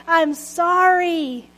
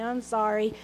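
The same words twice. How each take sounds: First: Drawn-out slow I'm sorry, each word given weight; I'm sorry, slow and deliberate; slow, weighty apology. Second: Reluctant mumble, softer; grudging kid's mumbled sorry; mumbled apology. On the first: Shown as a demonstration. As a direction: say it like you mean it. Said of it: "Say it like you mean it". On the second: Retold or imitated. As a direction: mumble it like a scolded child. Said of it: "I would mumble something like".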